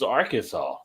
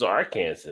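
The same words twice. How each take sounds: First: The ending sounds like the word saw. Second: The ending sounds like the word Kansas. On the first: This is how locals actually say it. The speaker calls it right. "No, this is Arkansas" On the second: A newcomer guesses it from the spelling. The speaker calls it wrong. "there's Kansas, so this is Arkansas"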